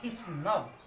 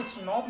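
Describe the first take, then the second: First: स्नब with a short "uh" vowel, "snub"; correct pronunciation. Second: स्नॉब with a long open "o" sound, like "snawb"; स्नॉब spoken as "snawb" to show the wrong way; wrong pronunciation. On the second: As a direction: say स्नॉब with a rounded "aw" vowel as the mistake to avoid. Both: Shown as a demonstration. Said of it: "इनको स्नॉब नहीं पढ़ना".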